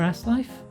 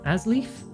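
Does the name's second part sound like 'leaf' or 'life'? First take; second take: life; leaf. First: The second part sounds like the word life. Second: The second part sounds like the word leaf. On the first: "Ass life. Ass is life" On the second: "I'll say it like that so people don't laugh so much"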